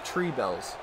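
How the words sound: It is said in an Irish accent. "Last time I did an Irish accent on here"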